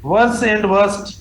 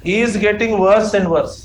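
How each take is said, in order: First: Drawn out word by word; very slow dictation. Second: Slow, deliberate words; slow dictation. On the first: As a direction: spell out the option slowly. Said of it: "teacher dictating option". (बहुत धीरे-धीरे लिखवाना) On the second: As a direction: dictate the sentence slowly. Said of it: "teacher dictating". (धीरे-धीरे लिखवाना) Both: Shown as a demonstration.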